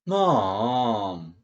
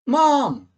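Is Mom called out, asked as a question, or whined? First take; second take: whined; called out. First: It is said in a whining, pleading way. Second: It is called out loudly. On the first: The speaker is pestering her for something. "보채는 기분으로 좀 조르는 기분으로는" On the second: The speaker is calling for her. "엄마를 소리 높여 부를 때"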